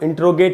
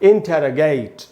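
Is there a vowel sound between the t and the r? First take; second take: no; yes. First: The t and r run together with no vowel. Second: A full vowel separates the t and r. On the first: The speaker calls it wrong. "इसका सही उच्चारण इंट्रोगेट नहीं है" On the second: The speaker calls it right. "इसका सही उच्चारण है इंटरोगेट"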